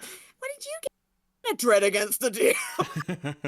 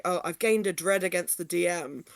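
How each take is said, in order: First: Slow, laughing little mouse voice; tiny mouse voice. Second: Said in the usual way. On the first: Retold or imitated. Retelling a player hearing the mouse character's voice. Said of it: "what I have in my head as a tiny little mouse". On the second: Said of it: "his normal voice is just, like, a normal talking voice".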